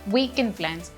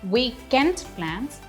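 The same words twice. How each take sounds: First: The d in weekend is dropped. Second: The d in weekend is clearly pronounced. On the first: The speaker calls it right. "We'll only say weekend plans" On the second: The speaker calls it wrong. "We are not saying weekend plans"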